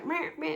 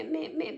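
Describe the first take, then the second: First: Mocking yap of petty bickering; a dismissive nagging meh; sneering mimicry of petty chatter. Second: A dismissive nagging meh, trailing off; sneering mimicry of petty chatter; mock bickering. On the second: Mocking women's petty bickering.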